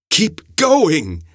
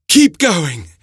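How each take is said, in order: First: Prodding. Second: High, pressing urge onward; urging. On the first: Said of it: "the old man prodded". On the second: The professor urges Montario onward, high and pressing. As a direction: push him onward with urgency. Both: A narrator's reading.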